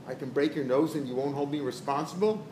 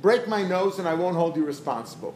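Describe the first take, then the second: First: Sceptical question rising on "responsible"; "responsible" lifted as a question. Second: Firm statement, no question on "responsible"; "responsible" as a settled statement; said straight out. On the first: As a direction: ask it doubtfully, lifting the end at "responsible". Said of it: "He said it with a question mark". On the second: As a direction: state it outright, closing firmly on "responsible". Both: Acted.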